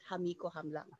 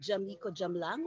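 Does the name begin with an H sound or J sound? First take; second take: H sound; J sound. First: The name begins with an H sound. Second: The name begins with a J sound. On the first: The speaker calls it wrong. "not Ham" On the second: The speaker calls it right. "I guess that's Jam"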